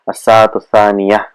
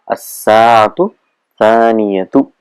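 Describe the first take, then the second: First: The last word ends with a soft h sound. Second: The last word ends with a full tu sound. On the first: This is how it is said in everyday speech. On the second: This is the formal grammatical form.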